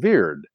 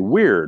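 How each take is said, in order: First: The word begins with a V sound. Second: The word begins with a W sound. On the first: "They pronounced it as a V" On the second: This is the modern pronunciation. "we say today weird with a W"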